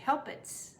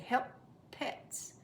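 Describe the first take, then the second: First: The two P sounds merge into one. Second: The two P sounds are said separately. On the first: The speaker calls it wrong. "You don't want to say helpets" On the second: The speaker calls it right. "there are two P's and there is a separation between them"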